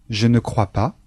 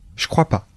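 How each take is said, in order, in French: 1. Le mot 'ne' est clairement prononcé. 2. Le mot 'ne' est complètement omis.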